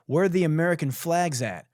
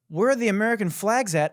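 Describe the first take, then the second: First: Rapped, rhythmic, punched lyric question; mock rap recital. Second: High, louder mocking question; incredulous echo. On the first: Rapped, host quoting the rapper's flag lyric, rhythmic recital. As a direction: deliver it as a rap bar. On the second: Host throwing lyric back at Canadian rapper, incredulous.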